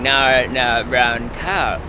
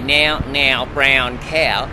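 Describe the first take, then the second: First: The vowel sounds closer to 'no'. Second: The vowel has the traditional Australian 'now' sound. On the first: This is how young Australians say it now. "I'm hearing" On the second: This is how Australians used to say it. "an Australian would used to always say"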